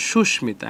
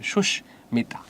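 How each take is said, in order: First: Said in the usual way. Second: Susmita broken after the first syllable, sush, then mita; pause at the hasanta. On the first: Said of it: "এখানে হসন্ত হবে". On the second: Shown as a demonstration. Teacher showing where the hasanta falls, Susmita split by a pause. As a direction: stop on the sh of Susmita, then finish it. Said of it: "থামলে অসন্ত".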